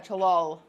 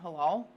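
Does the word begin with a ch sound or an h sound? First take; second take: ch sound; h sound. First: The word begins with a hard ch sound. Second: The word begins with a plain h sound. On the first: "I might not be saying it right" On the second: "there's no C in it?"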